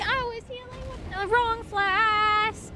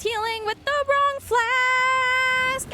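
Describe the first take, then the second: First: High, slow whine again; high whiny repeat. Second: Very high, slow whine; high whiny wail. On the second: Dismayed high wail at mistake. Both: Real, not acted.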